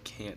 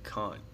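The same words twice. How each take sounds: First: It is said with an American accent. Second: It is said with a British accent. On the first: "instead of can't" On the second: "British people say like can't"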